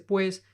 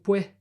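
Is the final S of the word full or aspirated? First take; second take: full; aspirated. First: The final S is said as a full S. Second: The final S is breathed out like an H. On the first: "nadie dice pues" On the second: "en el Caribe decimos pues y aspiramos las S"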